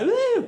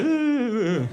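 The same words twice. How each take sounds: First: It is an excited, unrestrained cheer. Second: It is a quiet, subdued agreeing sound.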